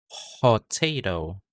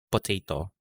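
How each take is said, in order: First: The first P is released with a puff of air. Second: The first P is released without a puff of air. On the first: The speaker calls it right. "There's an H sound after the P sound" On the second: The speaker calls it wrong. "Hindi potato"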